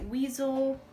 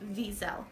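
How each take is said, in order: First: The name starts with a W sound. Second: The name starts with a V sound. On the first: The speaker calls it wrong. "mispronounced that and called it Weasel" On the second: The speaker calls it right. "It's actually Wiesel with a V"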